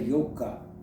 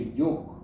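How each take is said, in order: First: The word ends with a final vowel sound. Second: The word ends on a consonant, no vowel. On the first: "they don't say yoga" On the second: "They don't pronounce the A"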